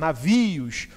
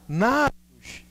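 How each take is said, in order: First: The stress falls on a later syllable. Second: The stress falls on the first syllable. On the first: The speaker calls it right. "A palavra é navios, ou seja, a sílaba tônica tá aqui" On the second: The speaker calls it wrong. "Opa, não é não"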